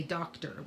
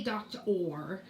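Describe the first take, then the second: First: "doctor" with a reduced "er" ending, dock-ter; usual ER ending. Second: "doctor" ending in a full "or", dock-TOR. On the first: Teacher shows what we say, "doctor" as dock-ter. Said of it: "We say doctor". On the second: Teacher shows what we don't say, "doctor" as dock-tor. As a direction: sound out "doctor" with "or" at the end. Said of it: "we don't say doctor". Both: Shown as a demonstration.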